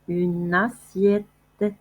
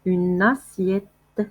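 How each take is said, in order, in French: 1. Les deux mots sont liés en un seul son. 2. Les deux mots sont liés en un seul son.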